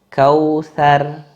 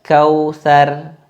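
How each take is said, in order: No difference in how they are said.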